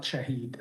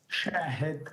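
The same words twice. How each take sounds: First: Shahid with long ee ending: sha-HEED; mistaken name pronunciation. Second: Shahid with stressed long first syllable, short i: SHAA-hid; correct name pronunciation. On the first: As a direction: say Shahid as "sha-HEED", stressing the second syllable. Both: Shown as a demonstration. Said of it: "that's a common mistake".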